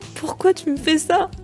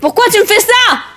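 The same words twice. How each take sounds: First: It is hesitant, with jerky breathing, choking at the end. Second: The voice builds louder in a crescendo. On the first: The character is sad. "hésitez dans la phrase, sentir que votre respiration est plus saccadée et vous étouffez" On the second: The character is angry. "un personnage énervé, votre voix devra monter en crescendo"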